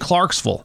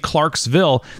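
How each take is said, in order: First: It is pronounced the way townies say it. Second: It is pronounced the way outsiders say it. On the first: The speaker is from the town. "They say Clarksville" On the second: The speaker is not from the town. "because they don't say Clarksville"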